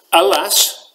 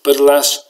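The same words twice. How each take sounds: First: Snorting mockery. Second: Said in the usual way. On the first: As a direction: throw her own word back at her with scorn. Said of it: "snorted Frolix". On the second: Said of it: "replied the old lady".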